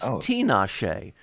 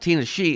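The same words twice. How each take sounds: First: The first part sounds like Tina. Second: The first part does not sound like Tina. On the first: The speaker calls it right. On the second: The speaker calls it wrong.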